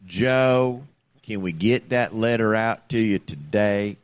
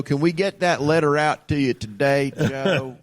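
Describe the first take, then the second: First: Slow, evenly paced scripted sales pitch; robot telemarketer voice. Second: A lightly voiced, too-smooth robocaller; robot telemarketer voice. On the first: Retold or imitated. Showing the co-host the bot's voice, slow and measured. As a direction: read it like a calm machine reading a script. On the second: Imitating the robot caller to his co-host, lightly scripted. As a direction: mimic a seamless scripted sales bot. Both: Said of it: "This is the voice I'm listening to".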